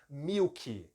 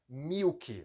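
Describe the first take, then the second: Both takes have the same delivery.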